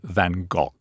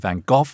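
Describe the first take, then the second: First: The name is said the French way. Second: The name is said the English way. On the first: "And the French say Van Gogh" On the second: "The English, of course, say Van Gogh"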